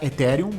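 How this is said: The word has a Brazilian Portuguese pronunciation. This is how Brazilians adapted it. "em português o pessoal abrasileirou para Ethereum"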